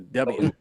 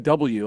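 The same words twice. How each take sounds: First: The letter is said in a southern American accent. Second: The letter is said in a northern American accent. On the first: "you go W" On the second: "We say W up here"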